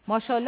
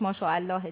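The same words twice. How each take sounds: First: It is said in a casual, everyday way. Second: It is said in a careful, full form. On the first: This is how people commonly say it. The speaker calls it wrong. "وقتی از یه چیز خوشمون میاد میگیم ماشاءالله" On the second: This is the proper form of the phrase. The speaker calls it right. "البته تلفظ صحیحش ماشاءالله دیگه"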